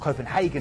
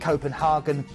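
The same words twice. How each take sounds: First: The name is pronounced in a plain way. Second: The name is pronounced in a posh way. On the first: The speaker calls it right. "would probably be a better way to pronounce it" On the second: The speaker calls it wrong. "I'm being posh"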